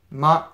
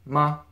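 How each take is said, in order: First: "ma" said firmly and in full; enunciated. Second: "ma" loose and unstressed, jaw just dropped; not enunciated. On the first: Teacher showing learners the over-careful version of the particle, enunciated "ma". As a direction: enunciate "ma" with a clear, open vowel. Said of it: "enunciate it, it would be ma". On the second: Teacher showing learners the practical pronunciation of the particle, lazy "ma". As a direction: let "ma" fall out lazily. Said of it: "Not enunciate it, it'd be ma". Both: Shown as a demonstration.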